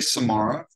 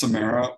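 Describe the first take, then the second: First: It is said to rhyme with Sahara. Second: It is said so it does not rhyme with Sahara. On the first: It follows the look of the spelling. "the spelling of Samara looks similar to the spelling for the Sahara Desert" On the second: It follows how the person who named it said it.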